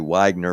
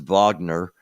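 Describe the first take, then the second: First: The name begins with a W sound. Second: The name begins with a V sound. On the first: This is how Americans say it. "if you're uh, you know from the United States, you'll say Wagner" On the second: This is how everyone outside the United States says it. "everywhere else it's Wagner. Um, the W is pronounced like a V"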